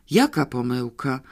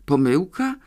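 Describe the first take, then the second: First: JAKA stressed, no rising end on "pomyłka". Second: POMYŁKA lifted into a rising question; questioning echo. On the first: Captive asking herself what mistake, stress on "Jaka". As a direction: lean on "Jaka", let "pomyłka" drop back. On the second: Captive puzzling over overheard word, questioning rise on "Pomyłka". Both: A narrator's reading.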